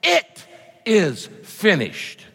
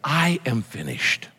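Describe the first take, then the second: First: "It", "is", "finished" slowly, one by one, with pauses; each word stressed. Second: "I" drawn out, the phrase slow and falling; stress on I. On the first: Preacher giving Jesus' actual words, each word stressed. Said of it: "He said". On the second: Preacher quoting what Jesus did not say, stress on I. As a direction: lean slowly on "I", then let "am finished" drop. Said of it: "Jesus did not say". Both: Shown as a demonstration.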